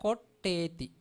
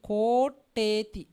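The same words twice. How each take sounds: First: "Koteti" said evenly, at normal pace; correct pronunciation. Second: "Koteti" said loud and slow; slow loud demo of a wrong "Koteti"; wrong pronunciation. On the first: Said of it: "Next one". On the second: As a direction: draw out "Koteti" loud, as the mistake. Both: Shown as a demonstration.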